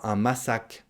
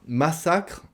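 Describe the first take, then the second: First: "massacre" cut short to "massac"; "un massacre" ending on a bare k; dropped final "re". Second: "Massacre" with the "cr" ending sounded; higher-pitched "Massacre", full final "cre"; final "re" pronounced. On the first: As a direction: swallow the "re" of "massacre". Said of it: "on ne dit pas". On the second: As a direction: keep the "r" at the end of "Massacre". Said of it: "on ne mange pas le re". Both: Shown as a demonstration.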